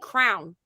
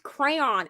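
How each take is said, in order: First: The word is squeezed into one syllable. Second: The word is said with two syllables. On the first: It imitates how someone else says the word. The speaker calls it wrong. "that's what I said, crown" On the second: It is the speaker's own way of saying it. The speaker calls it right. "it's crayon"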